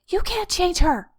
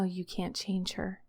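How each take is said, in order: First: It sounds tense, desperate and controlling. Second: It sounds calm, gentle and compassionate. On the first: It wants to control the situation. "wants to desperately cling to and control" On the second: It accepts what cannot be changed. "a curious, compassionate understanding"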